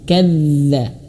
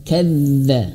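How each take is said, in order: No difference in how they are said.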